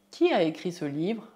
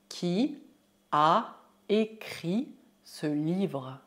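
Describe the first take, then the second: First: Said in the usual way. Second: Very slow, separated words. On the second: Shown as a demonstration. Teacher asks who wrote the book, word by word. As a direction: stretch it out for repetition.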